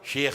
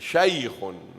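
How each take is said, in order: First: The vowel is a plain long e sound. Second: The vowel is a clear 'ay' glide. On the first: The speaker calls it wrong. "you will call your Imam what? Sheikh Sahib" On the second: The speaker calls it right. "if you know this rule, what will you call him?"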